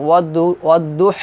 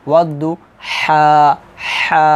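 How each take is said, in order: First: "ওয়াদুহ" cut off on a bare h; "ওয়াদুহ" short, final vowel missing; incorrect sakin reading. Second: "ওয়াদু", then a long open "হা"; "হা" drawn out with its vowel sounded; correct madd reading. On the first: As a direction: close "ওয়াদুহ" on h with no vowel after it. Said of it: "এভাবে কিন্তু উচ্চারণ করতে পারবেন না". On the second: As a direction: stretch "হা" for one alif, then repeat it. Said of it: "এইভাবে আমাদেরকে উচ্চারণ করতে হবে". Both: Shown as a demonstration.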